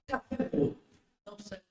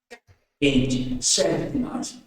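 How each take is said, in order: First: It is said in a flat, low-energy voice. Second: It is said in a lively, energetic voice.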